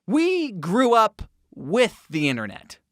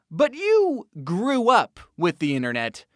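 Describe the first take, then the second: First: WE punched, falling end; stress on WE. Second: YOU punched, rest even; stress on YOU. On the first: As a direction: hit the word We hard. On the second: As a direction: hit the word you hard. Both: Shown as a demonstration. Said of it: "contrast you versus we".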